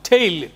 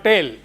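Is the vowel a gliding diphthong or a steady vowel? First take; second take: diphthong; steady vowel. First: The vowel glides as a diphthong. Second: The vowel stays steady without gliding. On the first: The speaker calls it right. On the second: The speaker calls it wrong. "but not tail"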